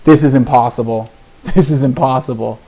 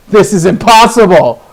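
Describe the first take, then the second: First: Said in the usual way. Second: Higher, louder burst of disbelief; exasperated shout. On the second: Real, not acted. Player fed up with land draws, exasperated shout. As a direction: burst out loudly, pitch jumping up.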